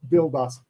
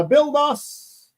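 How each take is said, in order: First: Said in the usual way. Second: High, slow sing-song reading of "build us"; drawn-out name read. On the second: Real, not acted. Reading a viewer's name aloud on the live stream, high and drawn out.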